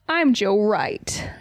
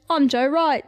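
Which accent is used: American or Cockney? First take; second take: American; Cockney. First: It is spoken in an American accent. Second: It is spoken in a Cockney accent. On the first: "now let me try American" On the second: "try Joe Wright's name in a Cockney accent"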